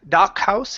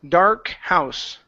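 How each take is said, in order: First: The R sound in dark is dropped. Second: The R sound in dark is pronounced. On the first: The speaker calls it wrong. "instead of dock, dock house" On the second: The speaker calls it right. "pronounce the R sound here"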